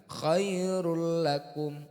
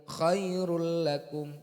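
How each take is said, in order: Both takes have the same delivery.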